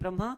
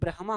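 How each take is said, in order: First: The h sound comes after the m. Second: The h sound comes before the m. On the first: The speaker calls it wrong. "लोग कहते हैं ब्रह्मा, तो ब्रह्मा नहीं" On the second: The speaker calls it right. "शुद्ध शब्द ब्रह्मा होता है"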